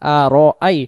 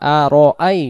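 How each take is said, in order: Both takes have the same delivery.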